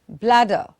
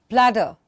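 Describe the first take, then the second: Both takes have the same delivery.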